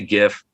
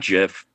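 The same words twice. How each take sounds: First: The word begins with a hard G sound. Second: The word begins with a J sound. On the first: The speaker calls it right. "I say GIF" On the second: The speaker calls it wrong. "not GIF ... that's uh, peanut butter to me"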